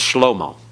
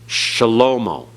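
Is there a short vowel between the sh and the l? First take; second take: no; yes. First: No vowel is heard between sh and l. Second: A short vowel is heard between sh and l. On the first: This is the modern pronunciation. "in modern Hebrew, it's just shlomo. They don't give that vocal sound at all" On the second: This is the biblical pronunciation. "it's supposed to be vocalized in biblical Hebrew"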